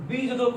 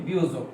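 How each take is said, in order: First: "বিযোজক" said bi-jojok, with both j sounds; expected spelling sound. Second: "বিয়োজক" said bi-yojok, first j turned to y; actual pronunciation. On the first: Teacher shows what it should be, "বিযোজক" as bi-jojok. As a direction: keep the first j in "বিযোজক": bi-jojok. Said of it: "হওয়া উচিত". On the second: Teacher shows what it became, "বিয়োজক" as bi-yojok. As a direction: glide into "বিয়োজক" as biyojok. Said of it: "কিন্তু হয়ে গেল কি". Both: Shown as a demonstration.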